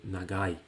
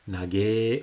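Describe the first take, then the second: First: The word ends in an 'ai' sound. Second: The word ends in a single 'e' sound. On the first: The standard form of the adjective. "au lieu de" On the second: A casual, distorted way of saying the adjective. "toujours cette façon déformée de prononcer les adjectifs"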